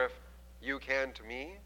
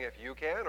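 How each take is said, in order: First: "If you can to me" with "can" rising and leaned on; a pointed "you can to me"; stress on can. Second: "can" lifted with a rising tune; stress on can. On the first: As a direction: put the weight on "can" and rise. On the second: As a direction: ask "If you can," rising on "can". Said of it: "I don't know if he's saying". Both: Shown as a demonstration.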